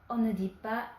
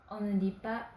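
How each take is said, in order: No difference in how they are said.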